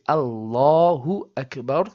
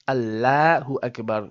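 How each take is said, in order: First: The L in Allah sounds heavy and full-mouthed. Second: The L in Allah sounds flat and light. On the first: The speaker calls it right. "we say Allahu Akbar" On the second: The speaker calls it wrong. "and not Allahu Akbar. We do not make the lam of the word Allah flat"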